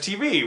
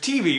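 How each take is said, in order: First: The stress is on the V. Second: The stress is on the T. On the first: "I've always heard it T V" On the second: "when the emphasis is on the T"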